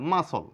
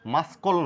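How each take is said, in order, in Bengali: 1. মাঝখানে কোনো k sound শোনা যায় না। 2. মাঝখানে একটি k সাউন্ড শোনা যায়। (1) "এটা মাসল, সি এর সাউন্ড নেই" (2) "মাসকল নয়"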